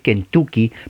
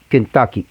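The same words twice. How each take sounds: First: The middle vowel is a rounded Spanish u. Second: The middle vowel is a short central uh. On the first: The speaker calls it wrong. "usted lo ve en español y va a decir Kentucky, pero no es U" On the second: The speaker calls it right. "en realidad es A"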